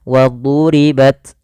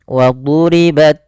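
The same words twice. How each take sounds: The two takes are said the same way.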